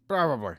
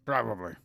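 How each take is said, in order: First: Louder, higher self-satisfied take; Probably said louder and higher, smugly. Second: Said in the usual way. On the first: Shown as a demonstration. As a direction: puff up the word Probably with mock pride.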